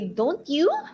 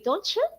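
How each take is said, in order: First: The two words are said separately, unlinked. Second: The two words are linked into one. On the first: This is how Filipino speakers say it. "Filipinos will say" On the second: This is how native speakers say it. "native speakers will say"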